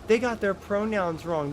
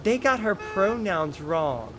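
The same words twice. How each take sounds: First: "their" as the correction, pitched higher than the first take; higher mocking correction with "their"; corrected retake, higher. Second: "got" leaned on, slowed, falling, mock outrage; sarcastic slowed read, stress on "got". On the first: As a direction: say it again with "their" swapped in, higher. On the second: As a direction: drag out "They got her pronouns wrong" sarcastically. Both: Shown as a demonstration.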